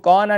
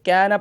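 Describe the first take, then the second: First: The long a sound is full and heavy. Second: The long a sound is thin and light. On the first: The speaker calls it wrong. "इसको कौना नहीं पढ़ेंगे" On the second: The speaker calls it right. "बल्कि कैना पढ़ेंगे"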